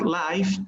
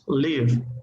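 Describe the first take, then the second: First: The vowel sounds like the one in 'five'. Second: The vowel sounds like the one in 'give'. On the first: The speaker calls it wrong. "it's not live" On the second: The speaker calls it right. "it's live"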